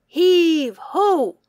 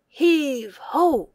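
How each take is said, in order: Both takes have the same delivery.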